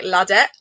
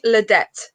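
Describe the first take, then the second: First: "Ladette" with an open "la" at the start; French-accented "Ladette", full first vowel; French pronunciation. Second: "Ladette" as luh-DET, final T sounded; "Ladette" with a reduced "luh" at the start; anglicised pronunciation. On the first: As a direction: say "Ladette" as lah-DET, French style. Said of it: "Say it in a French accent". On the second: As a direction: say "Ladette" with a weak first vowel. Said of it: "People call me Ladette like that". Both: Shown as a demonstration.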